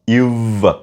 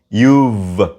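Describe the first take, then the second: First: The words merge into one contracted syllable. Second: The words merge into one contracted syllable.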